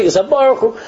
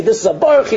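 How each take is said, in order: First: "Baruch Hu" said as Barchu, ending in oo; Barchu accent. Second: "Baruch Hu" said as Barchi, ending in ee; Barchi accent. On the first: Kids comparing accents, "Baruch Hu" said as Barchu with oo. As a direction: end "Baruch Hu" on an oo sound, Barchu. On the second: Kids comparing accents, "Baruch Hu" said as Barchi with ee. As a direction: end "Baruch Hu" on an ee sound, Barchi. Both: Retold or imitated. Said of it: "any little change in accent".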